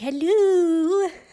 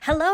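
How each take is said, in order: First: The greeting sounds eerie and unsettling. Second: The greeting sounds ordinary and friendly. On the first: The speaker calls it wrong. "instead of saying hello" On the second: The speaker calls it right. "like I'm normal and not an ink crazed lunatic"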